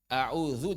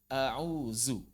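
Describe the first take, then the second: First: The consonant before the last vowel is 'dh'. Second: The consonant before the last vowel is 'z'.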